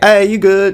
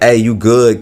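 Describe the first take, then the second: First: It is said in a cheery, friendly tone. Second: It is said in a curt, dismissive tone.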